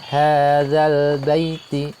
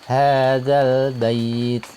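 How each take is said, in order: First: The 'ai' sound is short, with a final vowel. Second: The 'ai' sound is drawn out, phrase ends abruptly. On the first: The word is read without stopping. "tidak panjang" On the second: The reader stops on this word. "karena dibacanya waqaf"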